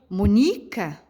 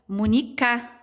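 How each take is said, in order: First: The stress is on the second syllable. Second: The stress is on the third syllable. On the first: "se eu fosse pronunciar a sílaba mais forte da palavrinha Mônica no ni" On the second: "Será que é o K?"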